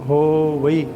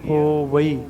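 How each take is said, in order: First: The word ends in two separate vowels, 'va-ee'. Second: The word ends in two separate vowels, 'va-ee'.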